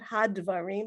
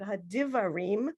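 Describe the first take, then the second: First: No vowel is sounded between d and v. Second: A vowel is sounded between d and v. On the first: The speaker calls it wrong. "not hadvarim" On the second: The speaker calls it right. "but hadivarim"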